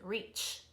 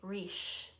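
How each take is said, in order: First: The word ends with a short ch sound. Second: The word ends with a soft sh sound. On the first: The speaker calls it right. "But it doesn't, it says reach. It ends a little quicker" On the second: The speaker calls it wrong. "If it was S, H, ship, sh, it'd say reach"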